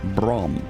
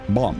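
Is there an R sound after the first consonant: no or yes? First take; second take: yes; no. First: It is said with an R sound. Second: It is said without an R sound. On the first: The speaker calls it wrong. "my brain just wants to say an R" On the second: The speaker calls it right. "it's bomb"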